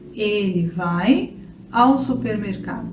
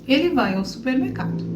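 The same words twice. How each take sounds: First: The sentence is spoken at a slower pace. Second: The sentence is spoken at a faster pace.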